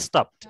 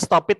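First: The ending is a plain t sound. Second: The ending is said as an extra syllable. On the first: The speaker calls it right. "tapi stopped" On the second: The speaker calls it wrong. "bukan dibaca stop it"

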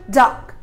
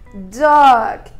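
First: The vowel is short and clipped. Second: The vowel is long and drawn out. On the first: This is the British pronunciation. "Já no inglês britânico é dog" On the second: This is the American pronunciation. "No inglês americano é dog"

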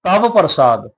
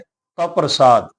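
First: The v sound is pronounced fully. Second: The v sound is pronounced only halfway. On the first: The speaker calls it wrong. "ਇਹਨੂੰ ਇਸ ਤਰ੍ਹਾਂ ਨਹੀਂ ਉਚਾਰਨ ਕਰਨਾ" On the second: The speaker calls it right. "ਆਪਾਂ ਅੱਧਾ ਉਚਾਰਨ ਕਰਨਾ ਹੈ"

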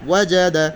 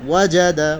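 No difference in how they are said.

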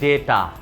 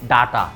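First: The first vowel is a plain short e. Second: The first vowel is an open a. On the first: "আমরা বলি ডেটা" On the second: "অনেকে বলি ডাটা"

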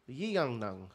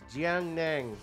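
First: The name is said with a Dutch-style pronunciation. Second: The name is said with a Chinese-style pronunciation. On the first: "It's in Dutch" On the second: "if I'm saying it correctly"

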